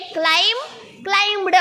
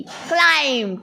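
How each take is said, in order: First: क्लाइम्ड with a full hard D at the end; wrong way. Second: क्लाइम्ड ending half ट half ड; right way. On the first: Teacher showing the wrong way: क्लाइम्ड with a full ड. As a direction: say क्लाइम्ड ending on a plain ड sound. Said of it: "ऐसे नहीं". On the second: Teacher modelling क्लाइम्ड, half ट half ड at the end. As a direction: end क्लाइम्ड on a sound between ट and ड. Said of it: "आधा ट आधा ड का देना". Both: Shown as a demonstration.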